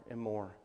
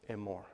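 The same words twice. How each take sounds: The two takes are said the same way.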